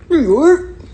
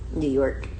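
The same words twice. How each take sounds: First: Loud, high, exaggerated New York shout; big high-pitched holler; hometown shout. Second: Said in the usual way. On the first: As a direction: shout it out for your city. Shouts the answer out proudly.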